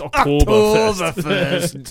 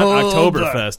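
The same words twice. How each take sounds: First: It is said in a German-style accent. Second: It is said in a plain American accent. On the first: The speaker calls it right. "You gotta say it like that" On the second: The speaker calls it wrong. "it's not Oktoberfest"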